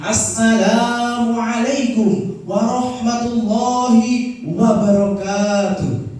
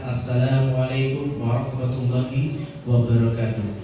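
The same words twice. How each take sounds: First: It is said loudly and with energy. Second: It is said softly and quietly.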